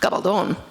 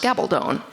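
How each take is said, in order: First: It is pronounced with Spanish sounds. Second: It is pronounced with English sounds. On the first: "in Spanish it is pronounced Gabaldon" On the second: "in English it's pronounced Gabaldon, still with a long O"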